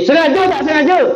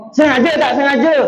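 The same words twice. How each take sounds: First: Higher, more insistent Sengaja tak sengaja; pressing teacher. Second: High questioning Sengaja tak sengaja; stern teacher. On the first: Kiai Khalil asking again, more insistent. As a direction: press the pupil harder. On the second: Kiai Khalil testing his student, stern question. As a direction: demand an answer from the pupil. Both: Retold or imitated.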